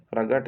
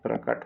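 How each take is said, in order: First: प्रगट with a voiced g sound in the middle, said as the wrong form; wrong pronunciation. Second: प्रकट with a clear unvoiced k, said as the right form; correct pronunciation. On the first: Teacher showing students the wrong way: प्रगट with a g. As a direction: say प्रगट with ग instead of क, as the mistake. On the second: Teacher giving students the right form: प्रकट with a k. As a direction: say प्रकट with a crisp क. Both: Shown as a demonstration. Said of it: "प्रगट नहीं होता".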